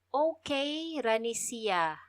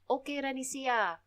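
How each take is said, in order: First: The phrase is spoken slowly. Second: The phrase is spoken at normal speed.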